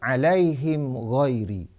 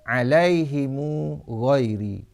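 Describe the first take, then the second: First: An i vowel before h; the m has no vowel. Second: An i vowel before h; a u follows the m. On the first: This is one reciter's reading. "kasrah ha dan iskan mim jamak, iaitu baris di bawah ha dan matikan mim jamak" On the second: This is another reciter's reading. "kasrah ha dan silah mim jamak, iaitu membaris depankan mim dan menyambungkan dengan waw"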